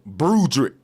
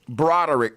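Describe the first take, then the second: First: The name is said in an altered, clipped form. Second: The name is said in its usual full form. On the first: This is a false version of the name. The speaker calls it wrong. "that's a synthetic form of my name, a mispronunciation" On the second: This is the true name. The speaker calls it right. "My name is Broderick"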